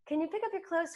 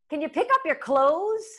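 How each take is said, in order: First: It sounds calm and affectionate. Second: It sounds irritated and sharp. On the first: It supports the long-term relationship. The speaker calls it right. "Or could I just take a breath?" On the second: It reacts to the moment's frustration. The speaker calls it wrong. "supports the reactionary moment of annoyance"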